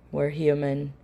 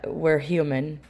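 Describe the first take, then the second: No difference in how they are said.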